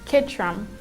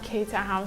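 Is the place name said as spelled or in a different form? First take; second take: different form; as spelled. First: The name is said in its local form. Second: The name is said as it is spelled. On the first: The speaker calls it right. "they call it Caterham" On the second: The speaker calls it wrong. "not Caterham"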